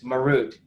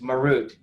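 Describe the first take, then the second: First: The word gets an anglicized English pronunciation. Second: The word gets an anglicized English pronunciation.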